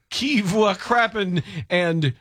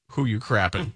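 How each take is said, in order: First: Put-on slow French accent. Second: Said in the usual way. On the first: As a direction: ask it like a mock Frenchman, slowly. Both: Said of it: "only one of which you will understand".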